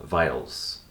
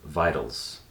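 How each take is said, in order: Both takes have the same delivery.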